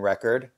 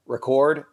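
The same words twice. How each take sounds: First: "record" as a noun, REK-erd; stress on first syllable. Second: "Record" as a verb, re-CORD; stress on second syllable. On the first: Showing viewers the noun form, "record" stressed REK-erd. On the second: Showing viewers the verb form, "Record" stressed re-CORD. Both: Shown as a demonstration. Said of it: "pronounced differently if they're a verb or a noun".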